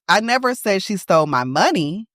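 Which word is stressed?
money. The word money carries the main stress. She stole something of mine, but not money. "she stole something. It just wasn't my money"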